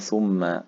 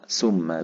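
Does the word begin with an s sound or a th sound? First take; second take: th; s. First: The word begins with a th sound. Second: The word begins with an s sound. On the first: It means 'then'. The speaker calls it right. "وثم بالثاء معناها حرف عطف" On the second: It means 'poison'. The speaker calls it wrong. "ثم بالسين السم القاتل المعروف"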